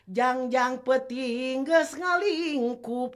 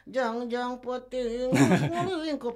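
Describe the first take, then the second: First: Each word is articulated clearly and distinctly. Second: The words are articulated unclearly and run together. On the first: The speaker calls it right. "itu kan artikulasi yang jelas" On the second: The speaker calls it wrong. "itu kan nggak jelas itu"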